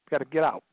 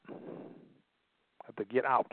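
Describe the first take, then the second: First: Said in the usual way. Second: Drawn out very slowly and softer; slow, soft repeat. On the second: Shown as a demonstration. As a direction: let the words sink in, slowly and quietly. Repeated phrase, drawn out softly.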